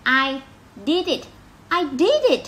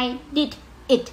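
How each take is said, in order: First: High, lively "did it" run together; linked reading. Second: "I", "did", "it" each said apart; separated words. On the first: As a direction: join "did" into "it" with a triumphant lift. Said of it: "nên cái này mình phải đọc nối lại". (đọc nối "did it", giọng cao reo vui) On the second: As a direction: break "I did it" into three stiff, unlinked words. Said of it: "Không ai đọc vậy hết trơn". (đọc rời từng từ "I did it", không nối) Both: Shown as a demonstration.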